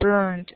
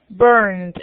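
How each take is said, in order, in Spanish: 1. El sonido final es una T. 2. El sonido final es una D. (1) "O será con T" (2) "En este caso se pronuncia como una D"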